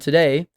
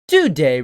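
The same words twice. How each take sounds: First: It is said in a flat, monotone voice. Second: It is said in a lively, varied voice. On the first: The speaker calls it wrong. "I shouldn't say it such a uh, monotone tone" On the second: The speaker calls it right. "I should instead say"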